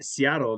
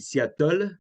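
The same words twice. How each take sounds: First: The name is said with an English pronunciation. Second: The name is said with a French pronunciation. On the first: French listeners do not understand the name. The speaker calls it wrong. "if you just say uh" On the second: The name is adapted so French listeners understand it. The speaker calls it right. "you can't even say Seattle in French. You have to say Seattle"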